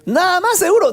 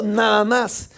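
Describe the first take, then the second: First: Sister's astonished high recheck; incredulous. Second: Said in the usual way. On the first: Retold or imitated. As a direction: push it up high, still not believing. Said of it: "Ella me dijo". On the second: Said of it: "le dije".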